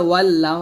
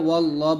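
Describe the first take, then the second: First: The 'l' in the word is light and thin. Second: The 'l' in the word is heavy and full. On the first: The speaker calls it wrong. "এখানে ওয়াল্লাহ হবে না" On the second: The speaker calls it right. "লফজালাল্লাহ মোটা করবেন"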